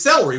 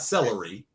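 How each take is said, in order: First: The word is said with two syllables. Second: The word is said with three syllables. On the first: This is how it is said in the speaker's home region. "it's celery where we're from" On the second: This is the standard form the speaker learned later. "It's not celery"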